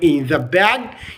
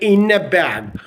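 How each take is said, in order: First: The th sound is clearly pronounced. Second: The th sound is dropped after the n. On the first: "instead of saying in the bag" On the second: "you're not going to consider the T H sound"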